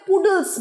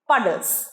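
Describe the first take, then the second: First: The first vowel sounds like 'oo' in 'put'. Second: The first vowel sounds like 'uh' in 'cup'. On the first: The speaker calls it wrong. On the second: The speaker calls it right.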